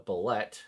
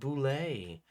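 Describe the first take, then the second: First: The word ends with a t sound. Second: The word ends with an ay sound. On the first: "next up we have the Bulette" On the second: "all of you old school people are going to tell me it's pronounced Boulay"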